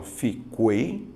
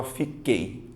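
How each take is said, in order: First: Fiquei said slowly with the U sounded, like fi-KWEI; wrong pronunciation. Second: Said in the usual way. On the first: Shown as a demonstration. Teacher mocking the wrong way students might say fiquei, slowly. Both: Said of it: "Você fala fiquei ou você fala fiquei".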